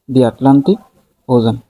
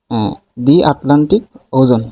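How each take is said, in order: First: Said in the usual way. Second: The দি stressed, Atlantic ওজন said slowly; slow model phrase. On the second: Shown as a demonstration. Teacher modelling দি Atlantic for students, slow and stressed. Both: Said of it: "এই নামগুলোর আগে সবসময় দা বসে".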